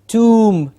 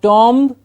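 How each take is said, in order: First: The vowel is a long oo sound. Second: The vowel is an aw sound. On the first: The speaker calls it right. "with a long oo sound" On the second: The speaker calls it wrong. "we generally hear it as an with an aw sound"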